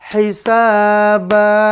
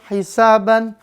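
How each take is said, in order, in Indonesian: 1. Kata itu berakhir dengan vokal panjang. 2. Kata itu berakhir dengan bunyi n. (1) "Tanwinnya dihilangkan, lalu dibaca panjang dua harokat" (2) "semuanya berakhiran an semua"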